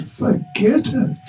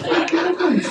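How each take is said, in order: First: High, slow sulky brush-off; sulky refusal. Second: High, giggling brush-off; laughing refusal. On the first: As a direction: refuse him like a moody child. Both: Acted. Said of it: "He gets into a mood".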